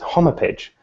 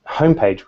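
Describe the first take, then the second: First: It is said with three syllables. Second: It is said with two syllables.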